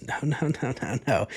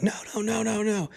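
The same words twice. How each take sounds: First: Retold refusal. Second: Very high, squealed no's without real volume; mock escalating refusal. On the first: Girlfriend answering his question about her dad, first refusal. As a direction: act out her first refusal, not yet loud. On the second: Girlfriend standing up at dinner to deny it, mock high-pitched protest. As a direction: imitate her mounting refusal in a high voice. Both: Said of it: "she just keeps louder and louder".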